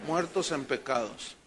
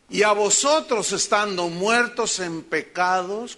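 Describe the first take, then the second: First: Low answer. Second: Slow, loud scripture reading with "vosotros" stressed and rising; read out emphatically. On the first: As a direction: lower and softer, "muertos" stressed and falling. (respuesta baja y suave, cayendo en "muertos") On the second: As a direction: read the verse slowly, leaning on "vosotros". (lectura lenta y enfática, subiendo en "vosotros") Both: Shown as a demonstration. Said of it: "¿cómo estábamos?".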